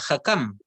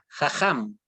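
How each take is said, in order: First: The second consonant is a hard k sound. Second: The second consonant is a raspy throat sound. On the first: The letter would have a dot in it. "si no sonaría Hakam" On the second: The letter has no dot in it. "Con J"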